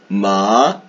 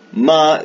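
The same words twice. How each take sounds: First: The pitch moves down and then up. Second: The pitch stays high and level. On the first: It means horse. "el tono que cae y después desciende de nuevo" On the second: It means mother. "hay un tono que es el tono agudo"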